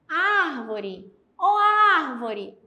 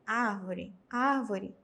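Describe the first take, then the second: First: It is called out loudly, like shouting. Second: It is said quietly, without calling.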